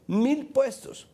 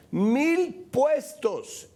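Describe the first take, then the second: First: "mil puestos" pitched high, punched out; high, emphatic "mil puestos"; incredulous emphasis. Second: "Mil puestos" very slow and high, each word stretched; hugely drawn-out, high "Mil puestos"; drawn-out outraged emphasis. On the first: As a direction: land "mil puestos" as an outraged reveal. Indignant reveal of the figure. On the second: Repeats the figure, outraged. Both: Real, not acted.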